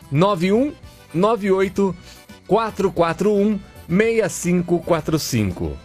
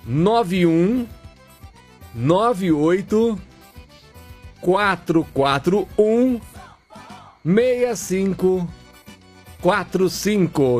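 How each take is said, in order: First: The number is said at normal speed. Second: The number is said slowly.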